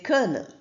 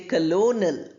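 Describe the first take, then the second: First: No O vowel sound is pronounced. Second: An O vowel sound is pronounced. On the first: The speaker calls it right. "we say kernel" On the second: The speaker calls it wrong. "We don't say colonel usually"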